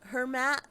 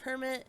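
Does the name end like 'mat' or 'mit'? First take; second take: mat; mit. First: The name ends with a 'mat' sound. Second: The name ends with a 'mit' sound. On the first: The speaker calls it right. "Hermat, not Hermit" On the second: The speaker calls it wrong. "not Hermit"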